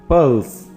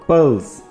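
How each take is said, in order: Both takes have the same delivery.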